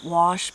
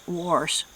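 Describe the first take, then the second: First: The word is said without an r sound. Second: The word is said with an added r sound.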